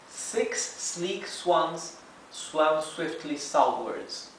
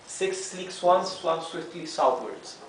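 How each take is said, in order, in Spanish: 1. Se dice con fluidez a velocidad normal. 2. Se dice rápido, a un ritmo más veloz. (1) "now let's read the whole tongue twister in real speed" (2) "Now a bit faster"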